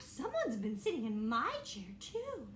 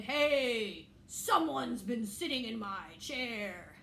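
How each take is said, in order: First: Fussing mother bear, ending in a squeak; Mommy Bear. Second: Slow, lightly voiced papa bear; a hint of a grumbling father bear, drawn out. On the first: Acted. Mommy Bear voiced in story.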